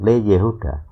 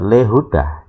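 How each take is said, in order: First: The 'ye' sound is pronounced before 'huda'. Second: The 'ye' sound is dropped before 'huda'. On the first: "Le Yehuda dibaca" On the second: "yodnya nggak dibaca"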